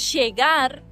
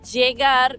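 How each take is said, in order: First: The ll sounds like an English sh. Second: The ll sounds like an English y. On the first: "como si fuese C H en tu caso y S H en el nuestro" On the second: "como si fuese ye"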